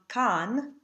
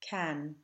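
First: The vowel is not the cat vowel. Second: The vowel is a relaxed cat vowel. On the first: The speaker calls it wrong. "don't let the second word of the piece become can" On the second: The speaker calls it right. "a really nice, relaxed cat vowel"

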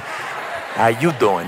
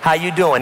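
First: It is said as a flirty Joey Tribbiani impression. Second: It is said in a plain, ordinary voice.

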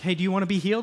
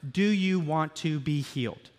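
First: It is asked in a flippant, showman-like way. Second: It is asked in an earnest, sincere way.

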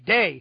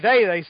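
First: The word begins with a d sound. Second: The word begins with a th sound. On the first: "they substitute the letter D for the letters TH" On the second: "They don't say they"

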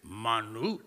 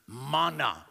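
First: It is said with a put-on Hebrew-like sound. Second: It is said with a plain English sound.

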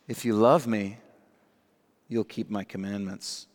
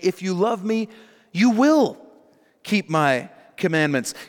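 First: The tone is passive-aggressive and guilt-tripping. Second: The tone is warm, promising and encouraging. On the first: It is a veiled demand meant to make listeners feel guilty. The speaker calls it wrong. "passive-aggressive, guilt-tripping rabbi" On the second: It is a promise that love will produce obedience. The speaker calls it right. "He's making a promise to them and giving them an encouragement"

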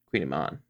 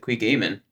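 First: The first syllable sounds like 'queen'. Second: The first syllable sounds like 'quig'. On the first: The speaker calls it right. "if you ever see a word that looks funny spelled" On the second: The speaker calls it wrong. "I want to say he pronounced it Quigamen"

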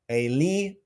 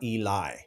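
First: The name ends with an 'ee' sound. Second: The name ends with an 'eye' sound. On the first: The speaker calls it right. "the I at the end of the name is pronounced as E" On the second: The speaker calls it wrong. "not Eli"

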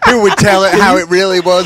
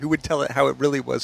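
First: It is said in a Southern accent. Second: It is said in a plain accent.

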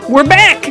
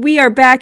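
First: It is said in a put-on imitation voice. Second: It is said in the speaker's natural voice. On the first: The speaker is imitating another person. "That's the extent of my Joe impression" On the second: The speaker is talking as themselves. "I've gone back to being me"

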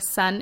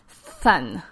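First: The word starts with a clear s sound. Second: The word starts with a th-like lisped sound. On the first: "instead of sun" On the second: "it would become thun"

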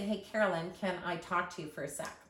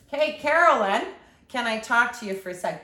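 First: It is said in a polite, gentle tone. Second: It is said in a rude, aggressive tone.

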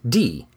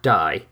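First: The vowel sounds like 'ee', as in 'dee'. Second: The vowel sounds like 'eye', as in 'die'. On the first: The speaker calls it right. "is pronounced D" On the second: The speaker calls it wrong. "not die, as in kill"

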